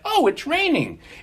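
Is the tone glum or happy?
happy. It is said in a happy, cheerful tone.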